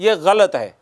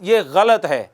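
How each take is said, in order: Both takes have the same delivery.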